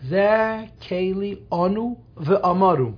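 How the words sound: The last word is said as amaru. "They say that keli onu v'amaru. That's how they pronounce it"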